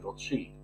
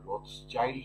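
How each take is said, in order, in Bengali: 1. মাঝের ব্যঞ্জনবর্ণটি একটি 'sh' ধ্বনি। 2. মাঝের ব্যঞ্জনবর্ণটি একটি 'ch' ধ্বনি। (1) "সঠিক উচ্চারণটা হচ্ছে রথশিল্ড" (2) "যেটাকে আমরা রথচাইল্ড আমাদের দেশে আপনারা বলেন"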